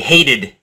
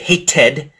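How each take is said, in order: First: The middle consonant is a soft D sound. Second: The middle consonant is a clear T sound. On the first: The speaker calls it right. "we say hated" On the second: The speaker calls it wrong. "We don't say hated"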